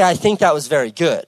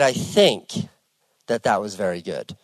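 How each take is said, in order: First: It sounds plainly confident and approving. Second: It sounds bewildered and unsure, hesitating.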